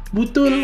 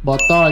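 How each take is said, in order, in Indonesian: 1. Vokalnya dilafalkan sebagai bunyi u. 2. Vokalnya dilafalkan sebagai bunyi o.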